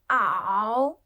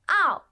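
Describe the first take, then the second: First: The pitch dips low then rises. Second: The pitch falls sharply from high.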